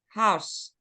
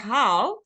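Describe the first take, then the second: First: The final S sound is clearly said. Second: The final S sound is left off. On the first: The speaker calls it right. "So it's really important to pronounce the S" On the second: The speaker calls it wrong. "if you say how, it sounds like you're saying how"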